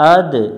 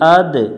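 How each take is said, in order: No difference in how they are said.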